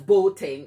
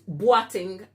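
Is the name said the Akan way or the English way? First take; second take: English; Akan. First: The name is said with English sounds. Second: The name is said with Akan sounds. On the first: The speaker calls it wrong. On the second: The speaker calls it right.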